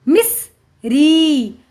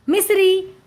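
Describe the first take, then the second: First: miss, pause, then a long री; sounding out. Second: Said in the usual way. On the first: Shown as a demonstration. Teacher reading to children, syllable by syllable. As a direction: split it slowly: miss... री. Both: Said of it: "उच्चारण करके पढ़ लिया".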